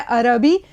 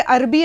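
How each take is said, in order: First: अरबी said as "a-ra-bi", r opened with a short a; correct open vowels. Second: अरबी said as "arbi", r closed with no vowel; wrong vowelless r. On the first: Teacher giving students the correct reading, a-ra-bi. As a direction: say अरबी in three clear syllables, a-ra-bi. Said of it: "सही लफ्ज़ है अरबी". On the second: Teacher demonstrating to students the common wrong reading, arbi. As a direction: say अरबी clipped to two syllables, ar-bi. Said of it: "रे पे मैंने जज़्म लगा दिया". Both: Shown as a demonstration.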